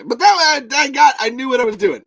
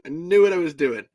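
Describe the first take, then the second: First: High, loud, fast protest; movie character voice. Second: Said in the usual way. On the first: Retold or imitated. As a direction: blurt it out defensively. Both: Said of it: "in the voice that they sound like from the movie".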